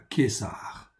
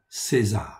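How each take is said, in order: First: The name is said with Hebrew pronunciation. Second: The name is said with French pronunciation.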